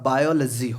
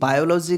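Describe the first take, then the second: First: The third syllable has a short 'luh' vowel. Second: The third syllable has a full 'law' vowel. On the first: The speaker calls it right. "इसका बायोलॉजी होगा" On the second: The speaker calls it wrong. "गलत pronunciation है"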